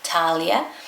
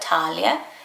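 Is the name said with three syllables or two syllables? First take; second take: two; two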